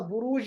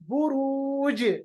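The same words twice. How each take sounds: First: The final consonant stops flat without a bounce. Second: The final consonant ends with an echoing bounce. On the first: The speaker calls it wrong. "बुरूज नहीं पढ़ेंगे" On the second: The speaker calls it right. "जीम की आवाज को वापस लाइएगा"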